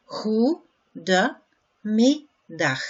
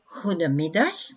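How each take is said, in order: First: "goedemiddag" stretched out slowly, throaty g, falling; very slow "goedemiddag" for learners; slow model. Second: Said in the usual way. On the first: Shown as a demonstration. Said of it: "slow model after normal take". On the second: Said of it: "normal take".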